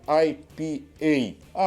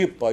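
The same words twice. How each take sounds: First: The letters are named the English way. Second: The letters are named the Portuguese way. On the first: The speaker calls it right. "Porque é língua inglesa" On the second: The speaker calls it wrong. "não fala I P A não"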